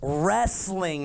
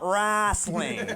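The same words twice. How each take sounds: First: It is said in a plain Midwestern accent. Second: It is said in a Southern-sounding accent. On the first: The speaker calls it right. "it's wrestling" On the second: The speaker calls it wrong. "not wrestling. All right? We are not in West Virginia here"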